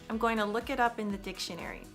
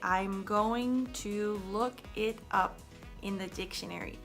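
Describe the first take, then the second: First: The words run together in connected speech. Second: Each word is pronounced separately and carefully. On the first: The speaker calls it right. "So now listen" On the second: The speaker calls it wrong. "You're enunciating every word carefully"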